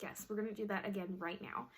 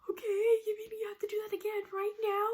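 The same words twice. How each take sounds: First: Said in the usual way. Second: High-pitched, rushed tearful whine; mock crying. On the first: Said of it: "And she's like". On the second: Crying patient to nurse about a second needle, mock sobbing. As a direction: imitate bawling in disbelief. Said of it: "crying my eyes out".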